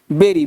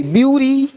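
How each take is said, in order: First: "बेरी" like "berry", lower and falling; correct pronunciation. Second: "ब्यूरी" with a yu glide after b; wrong pronunciation. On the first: Teacher models bury for students, "बेरी" with an e sound. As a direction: say "बेरी" with an e, no yu glide. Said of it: "बरी को बोलना है बेरी". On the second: Teacher shows the mistake in bury, "ब्यूरी" with yu. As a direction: say "ब्यूरी" like "byoo-ree", held up at the end. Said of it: "ब्यूरी नहीं". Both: Shown as a demonstration.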